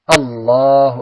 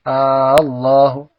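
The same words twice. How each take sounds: First: The first vowel 'A' is short. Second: The first vowel 'A' is drawn out long. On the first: The speaker calls it right. "tapi Allahu Akbar" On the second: The speaker calls it wrong. "Jangan sampai A-nya dipanjangkan jadi Allahu"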